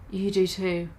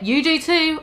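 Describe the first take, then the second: First: "You do too" said softer and lower, sad; sadly. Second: Said in the usual way. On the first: Shown as a demonstration. Goth girl answering Bloody Mary sadly, "You do too" soft and low. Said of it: "I said sadly too". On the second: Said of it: "Let me go over that".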